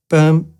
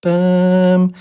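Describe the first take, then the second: First: A quick, short "Bum"; short syllable. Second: A long, held-out "Bum", a bit higher and louder; long syllable. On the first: Teacher demoing a short syllable, quick "Bum". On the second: Teacher demoing a long syllable, held-out "Bum". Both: Shown as a demonstration. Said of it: "that second syllable is longer".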